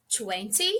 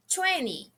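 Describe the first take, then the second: First: Twenty with a clear t in the middle, twen-ty; careful twenty. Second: Twenty with the middle t dropped, like twenny; relaxed twenty. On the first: Teacher showing students the careful Twenty. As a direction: say Twenty with both t sounds. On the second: Teacher showing students the casual twenty. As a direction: let the t vanish in twenty. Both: Shown as a demonstration. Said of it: "Tem duas formas de falar".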